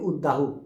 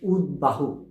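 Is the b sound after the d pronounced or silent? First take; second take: silent; pronounced. First: The b sound after d is silent. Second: The b sound after d is pronounced. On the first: The speaker calls it wrong. "এটিকেও আমরা ভুল করে অনেকেই বলি" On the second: The speaker calls it right. "এই কারণে এটিও উচ্চারণ হবে"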